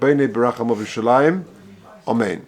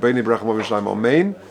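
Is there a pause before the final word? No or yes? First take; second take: yes; no. First: There is a short pause before the last word. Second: It is said in one breath without pausing. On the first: The amen is separate from the blessing. The speaker calls it right. "So have a little pause" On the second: The amen sounds like part of the blessing. The speaker calls it wrong. "like I just did it b'neshima achas in one breath"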